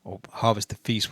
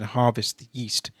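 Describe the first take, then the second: First: "feast" said clearly with an f; "feast" fixed, starting on a clear f; corrected lyric. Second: "yeast" said with a plain y sound; misheard lyric. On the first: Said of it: "whatever it says". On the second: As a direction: reads "yeast" instead of "feast". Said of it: "Or harvest the feast, whatever it says". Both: Real, not acted.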